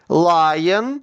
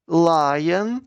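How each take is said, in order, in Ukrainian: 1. Слово вимовляють голосно. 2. Слово вимовляють трохи тихіше. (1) "Голосно" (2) "тихіше"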